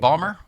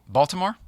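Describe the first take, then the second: First: The middle syllables are dropped, giving two syllables. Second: All syllables are kept, giving the full form.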